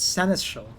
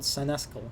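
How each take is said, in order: First: The middle consonant sounds like 'sh'. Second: The middle consonant sounds like 'sk'. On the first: The speaker calls it right. "It's it's Seneschal" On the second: The speaker calls it wrong. "not Senescal"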